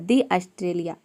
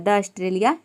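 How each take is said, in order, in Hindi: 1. 'The' को लंबे 'thee' स्वर के साथ बोला जाता है। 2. 'The' को छोटे 'thuh' स्वर के साथ बोला जाता है। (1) "यहाँ पे दी ऑस्ट्रेलिया हो जाएगा" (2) "द ऑस्ट्रेलिया नहीं होगा"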